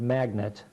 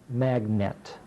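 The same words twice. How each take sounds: First: The second vowel is reduced to a schwa. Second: The second vowel is said fully and clearly. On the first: This is the everyday pronunciation. "I want you to spell the word magnet" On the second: This pronunciation helps to remember the spelling. "but it's spelled magnet"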